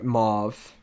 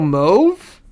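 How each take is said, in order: First: The vowel does not rhyme with stove. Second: The vowel rhymes with the word stove. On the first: "They're saying it the way mauve" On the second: "Like stove, so mauve"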